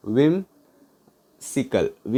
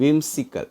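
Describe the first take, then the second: First: Whimsical very slow, a long gap after whim; broken in two. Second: Said in the usual way. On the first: Shown as a demonstration. Teacher helping learners remember whimsical, split with a long pause. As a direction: say whim, pause, then sical.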